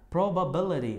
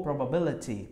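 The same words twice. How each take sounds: First: PROBABILITY ending in "ri"; American flapped T. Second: PROBABILITY ending in a clear "ti"; T pronunciation. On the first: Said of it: "americana ri". ("Probability" terminando em "ri", à americana) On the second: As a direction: pronounce the T of PROBABILITY fully. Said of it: "vai ter a terminação ti". ("probability" com T claro) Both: Shown as a demonstration.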